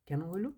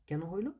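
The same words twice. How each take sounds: Both takes have the same delivery.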